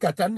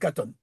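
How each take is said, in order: First: The last syllable has an 'a' vowel. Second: The last syllable has an 'o' vowel. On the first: "soit on peut dire katan" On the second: "soit on peut dire katon"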